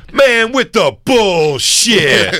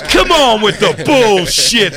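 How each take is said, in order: First: High, slow mock complaint, laughing; hammed-up disgusted moviegoer; guy storming out. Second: High, slow mock complaint; drawn-out disgusted moviegoer; guy storming out. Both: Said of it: "He goes".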